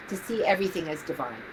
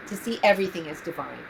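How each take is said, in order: Both takes have the same delivery.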